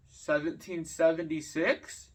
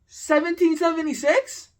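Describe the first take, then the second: First: Slow, unsure mock-dumb guess; clueless guess. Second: High, loud disbelieving repeat; incredulous echo. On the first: Imitating the classmate's slow, clueless guess. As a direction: play the kid who has no clue. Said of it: "like, had no idea". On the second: Real, not acted. Venting to viewers about a classmate, a loud, high disbelieving echo. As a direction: throw his answer back in disbelief. Echoing the kid's absurd answer.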